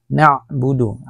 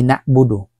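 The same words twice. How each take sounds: First: "Na'budu" with a throaty ain stop; the right way, with ain; correct pronunciation. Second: "na'budu" with a plain hamza stop; the wrong way, glottal only; wrong pronunciation. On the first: Teacher shows students "Na'budu" with ain. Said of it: "Aini po yan". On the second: Teacher warns students against a hamza "na'budu". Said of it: "Hindi na'budu". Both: Shown as a demonstration.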